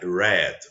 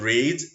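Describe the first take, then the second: First: The vowel is short, like in 'red'. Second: The vowel is long, like in 'reed'. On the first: It is the past tense of the verb. "the past tense of this verb you write the same, but the pronunciation is different" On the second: It is the base form of the verb. "to read"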